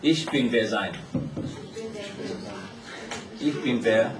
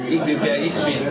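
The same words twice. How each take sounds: First: Slow, halting German, syllable by syllable: "Ich bin wer sein"; halting German attempt. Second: German said smoothly and louder with a laugh: "Ich bin wer ich bin"; corrected German. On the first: (慢慢地一个音一个音试读德语"Ich bin wer sein") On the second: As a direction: land the fixed line "Ich bin wer ich bin" confidently. (笑着流利地说出改正后的德语"Ich bin wer ich bin") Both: Shown as a demonstration. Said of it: "Wer sein什么意思？".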